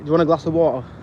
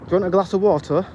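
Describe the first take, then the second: First: It sounds casual, with the t in water dropped. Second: It sounds posh, with a clear t in water. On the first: "Where I'd be like" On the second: "I feel like I sound posh when I say water"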